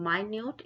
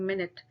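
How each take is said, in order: First: It begins with 'my' and ends in 'noot'. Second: It begins with 'min' and ends in 'it'. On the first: Very small. "मैं इसको बोल रही हूँ माइन्यूट" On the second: A unit of time. "इसको बोल रही हूँ मिनट"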